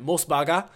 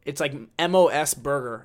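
First: Japanese accent. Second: Said in the usual way. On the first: Shown as a demonstration. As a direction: say it with a Japanese accent, Mos Baga. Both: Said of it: "I guess I'll do the Japanese accent".

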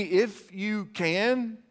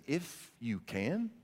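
First: "If you can" slow and raised, stretched out; preacher repeating the phrase, slow, high and strong; emphatic repeat. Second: "If you can" drawn out slowly and quietly; Jesus turning the father's words back on him, slow and quiet; slow, weighty question. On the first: Shown as a demonstration. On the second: Pretend. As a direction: let "If you can" hang, slow and soft. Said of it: "he looks at this man and he says".

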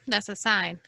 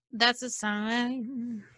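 First: Said in the usual way. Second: Slow, weighty. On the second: Acted. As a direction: drag out "that's a sign" very slowly, each word stretched. Repeated line, first slowed.

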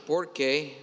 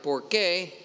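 First: Porque run together as one word, stress on the first syllable por; Spanish porque as one word. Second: Por qué said as two words, stress falling on qué; Spanish por qué with stress on qué. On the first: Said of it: "which means because". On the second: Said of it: "which means". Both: Shown as a demonstration.

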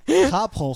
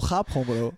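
First: High, loud teasing call; playful shout. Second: Said in the usual way. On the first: Real, not acted. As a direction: tease him loudly. Teasing friend about yawning.

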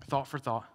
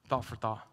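Both takes have the same delivery.

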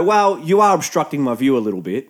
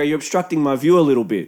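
First: "are" leaned on, unhurried complaint; measured stress on are. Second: Brisk restatement, evenly run through; quicker matter-of-fact repeat. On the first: Beachgoer telling the tent owners about his view, "are" firmly stressed. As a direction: state it deliberately, weight on "are". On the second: Beachgoer repeating his complaint to the tent owners, brisk and matter-of-fact. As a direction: repeat it quickly without leaning on any word. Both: Retold or imitated.

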